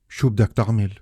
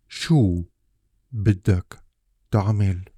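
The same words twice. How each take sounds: First: The words run together without any breaks. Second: Each word is said separately with small breaks. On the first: The speaker calls it right. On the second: The speaker calls it wrong.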